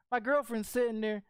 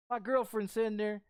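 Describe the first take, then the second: No difference in how they are said.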